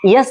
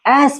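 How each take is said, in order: First: It begins with a y sound. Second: It begins directly with a vowel. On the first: The speaker calls it wrong. "यस नहीं" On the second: The speaker calls it right. "एस पढ़ा जाता है"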